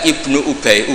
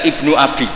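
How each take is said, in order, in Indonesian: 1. Kata kedua dilafalkan Ubay. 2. Kata kedua dilafalkan Abi. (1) "Ubay bin Ka'ab" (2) "itu dibaca Ibnu Abi"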